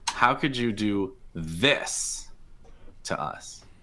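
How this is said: The word 'this' carries the main stress. The complaint is about the specific acts committed. "But like it's the this"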